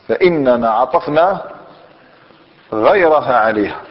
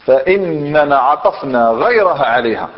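First: فإننا عطفنا said slowly with a rise, then a pause before غيرها عليها, with غيرها stressed and falling; slow emphatic repeat. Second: Said in the usual way. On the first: Shown as a demonstration. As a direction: split the sentence in two and lean on غيرها. (أعد الجملة ببطء مع نبرة على غيرها)

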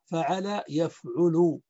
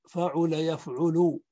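First: فعل يفعل said fa'ala yaf'ulu; فعل with a-a-a, يفعل with u after the ayn; damma on the present. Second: فعل يفعل said fa'ula yaf'ulu; u after the ayn in both فعل and يفعل; damma on both. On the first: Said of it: "وعين المضارع مضمومة". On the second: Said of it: "بضم العين في الماضي وضمها". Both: Shown as a demonstration.

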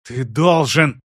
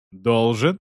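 First: Insistent, stress on должен. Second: Cold rising должен; cold question. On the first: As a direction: hit the word должен hard. Sister insists on demand. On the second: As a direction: question the word должен coldly. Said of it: "перебил её Кейван". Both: Acted.

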